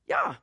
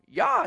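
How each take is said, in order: First: It is said plainly, as a calm name. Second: It is said as an excited cheer. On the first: It is a name. The speaker calls it right. "That's his name" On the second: It is an exclamation of celebration. The speaker calls it wrong. "like cheering up"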